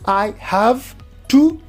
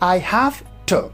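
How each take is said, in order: First: The end of 'have' is a voiced v. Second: The end of 'have' is a voiceless f. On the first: "In place of I have to" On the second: "the final v becomes voiceless, and it becomes f"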